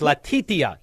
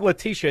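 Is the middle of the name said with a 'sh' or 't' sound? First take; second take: t; sh. First: The middle of the name has a hard 't' sound. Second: The middle of the name has a 'sh' sound. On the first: The speaker calls it right. "There's a T-I-T in it" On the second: The speaker calls it wrong. "It's not Letitia"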